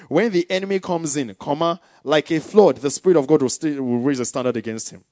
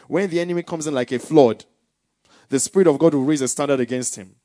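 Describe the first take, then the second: First: There is a clear break after "comes in". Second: It runs on with no break after "comes in".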